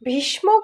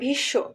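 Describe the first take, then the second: First: The word is said with an m sound. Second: The word is said with no m sound. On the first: The speaker calls it wrong. "ভীষ্ম কিন্তু বলি না" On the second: The speaker calls it right. "কিন্তু আমরা উচ্চারণ করি ভীষ্ম"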